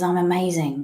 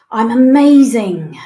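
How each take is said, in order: First: Said in the usual way. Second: Declared out loud, much louder; loud affirmation. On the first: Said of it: "Next one is". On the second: Shown as a demonstration. Coach showing the group the affirmation, loud and proud. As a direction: proclaim it with full belief. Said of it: "say either to yourself or out loud".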